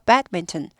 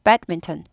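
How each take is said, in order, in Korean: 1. 영어식이고, 짧게 끊어서 발음해요. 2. 영어식이고, 짧게 끊어서 발음해요.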